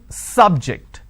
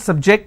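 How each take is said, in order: First: The stress is on the first syllable. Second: The stress is on the second syllable. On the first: It is used as a noun. "I'm stressing on the first syllable" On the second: It is used as a verb. "here my stress has moved to the second syllable"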